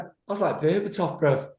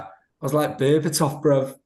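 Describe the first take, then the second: First: High cocky boast. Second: Cocky boast. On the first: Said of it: "and he went". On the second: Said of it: "he was like". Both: Retold or imitated.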